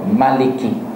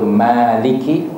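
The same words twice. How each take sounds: First: The first vowel is short. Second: The first vowel is held long. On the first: "tanpa mad, satu harakah, iaitu maliki" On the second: "dibaca dengan mad, seperti yang kita baca, iaitu maliki, panjang"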